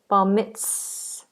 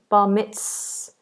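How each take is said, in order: The two takes are said the same way.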